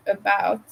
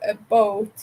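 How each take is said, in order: First: Said in the usual way. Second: "a boat" said as the raised Canadian "about", ow-like vowel; Canadian raising. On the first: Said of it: "say a boat instead of". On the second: Shown as a demonstration. Streamer demonstrating Canadian raising to chat, raised vowel. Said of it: "a lot of them say a boat instead of".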